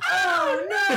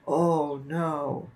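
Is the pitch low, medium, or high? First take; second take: high; low. First: It is said at a high pitch. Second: It is said at a low pitch.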